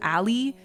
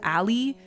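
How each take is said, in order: First: The word gets a playful, nonstandard pronunciation. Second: The same.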